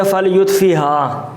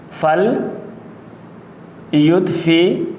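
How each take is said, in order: First: Said in the usual way. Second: فل یطفیہا split into parts with long pauses, rising mid-word; slow dictation. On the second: Shown as a demonstration. Teacher dictates the word in pieces.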